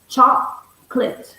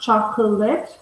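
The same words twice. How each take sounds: First: It is said with two syllables. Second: It is said with three syllables. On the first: The speaker calls it right. "we have two syllables" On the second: The speaker calls it wrong. "not three syllable, it's not chocolate"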